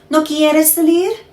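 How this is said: The voice rises at the end.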